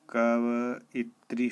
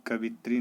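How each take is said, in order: First: कवइत्री drawn out slowly, ka-va-i-tri; correct pronunciation. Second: कवित्री in three syllables, ka-vi-tri; wrong pronunciation. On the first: Teacher gives the right form, slow four-syllable कवइत्री. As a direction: separate the "va" and "i" in कवइत्री. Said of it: "शुद्ध होता है". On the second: Teacher voices the error, कवित्री squeezed to three syllables. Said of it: "नहीं होता है". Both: Shown as a demonstration.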